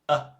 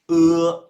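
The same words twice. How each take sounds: First: The vowel is said short and toneless. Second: The vowel is said with a full tone. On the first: "letter E by itself but neutral, like no tones" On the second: "letter E by itself is pronounced uh"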